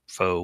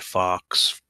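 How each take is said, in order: First: The word ends on a vowel sound. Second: The word ends with a 'ks' sound. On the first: "if you say it that way" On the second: "I say fox"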